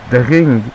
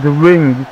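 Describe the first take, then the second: First: "The ring" said in a French accent. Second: Said in the usual way. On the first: Shown as a demonstration. Commentator showing the French way, "The ring" in French accent. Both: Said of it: "like we should say in French".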